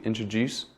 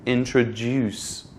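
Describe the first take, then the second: First: Said in the usual way. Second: "introduce" slowly, with a long stressed DUCE; stress at the end. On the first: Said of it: "you can just say it simply". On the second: Shown as a demonstration. Teacher adding the stress for learners, slow end-stressed "introduce". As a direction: add clear weight to the end of "introduce". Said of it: "you need to add the stress at the end".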